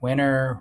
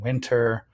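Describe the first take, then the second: First: The t after the n is dropped. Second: The t after the n is pronounced. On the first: "we don't pronounce this T if it's preceded by a vowel and an N" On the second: "rather than"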